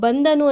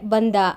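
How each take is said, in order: First: The word ends with the full final syllable. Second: The final syllable is dropped from the word. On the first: "ಈ ಬಂದನು ಅನ್ನೋ ಕಡೆ" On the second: "ಕೊನೆಯ ಅಕ್ಷರ ಬಿಟ್ಟು ಹೋದ್ರೆ"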